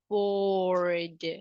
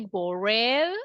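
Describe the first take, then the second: First: The word ends in a voiced D sound. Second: The word does not end in a D sound. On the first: The speaker calls it right. "we say bored. the pronunciation will be D" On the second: The speaker calls it wrong. "we don't say bored"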